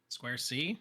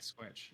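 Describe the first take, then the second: First: The name is said as two syllables. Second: The name is said as one syllable. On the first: This is how the other host always says it. "I always say Square C" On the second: This is how the person himself says it. "He pronounces it Squarch"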